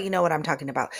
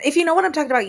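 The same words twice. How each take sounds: First: Said in the usual way. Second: High, loud burst of recognition; excited exclaim. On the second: Real, not acted. To listeners who remember sun reflectors, a loud high exclaim. Repeated phrase, first take exclaimed.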